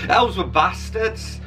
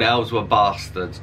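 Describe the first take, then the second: First: The title is said with a deliberately altered pronunciation. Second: The title is said in an ordinary pronunciation. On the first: The speaker calls it right. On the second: The speaker calls it wrong.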